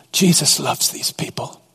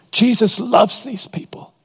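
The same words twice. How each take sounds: First: Hushed, breathed whisper; whispered awe. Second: Lifted higher, proclaiming; raised. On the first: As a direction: lean in and whisper it. Preacher's hushed climax. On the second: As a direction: ring it out higher. Preacher repeats line, raised. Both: Real, not acted.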